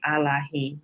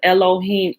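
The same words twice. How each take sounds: First: The word begins with an 'ah' sound. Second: The word begins with an 'eh' sound. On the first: The speaker calls it right. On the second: The speaker calls it wrong.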